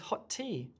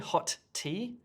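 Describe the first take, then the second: First: The two t sounds merge into one. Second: Both t sounds are pronounced separately. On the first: The speaker calls it right. "What we say is hot tea" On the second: The speaker calls it wrong. "We don't say hot tea"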